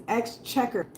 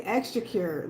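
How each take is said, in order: First: Exchequer said correctly, eks-CHEK-er; the right exchequer; correct version. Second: Exchequer said the way she wants to, ending in kyoor; the tempting wrong exchequer; wrong version. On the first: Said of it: "but it's exchequer". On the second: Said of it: "'Cause I wanna say exchequer". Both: Shown as a demonstration.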